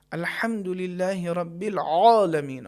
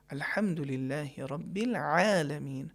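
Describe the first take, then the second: First: العالمین with a heavy, pressed ain, slow and drawn out; heavy wrong ain. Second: العالمین with a light, delicate ain, slow and soft; light correct ain. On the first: Teacher showing the wrong way, heavy ain in العالمین. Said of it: "صحیح نہیں ہے". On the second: Teacher showing the correct way, light delicate ain. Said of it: "صحیح کیا ہے". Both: Shown as a demonstration.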